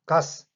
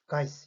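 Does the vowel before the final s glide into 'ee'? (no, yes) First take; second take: no; yes. First: The vowel goes straight into the final s. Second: The vowel glides into 'ee' before the s. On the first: "gas가 아니고" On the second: "이렇게 발음이 들립니다"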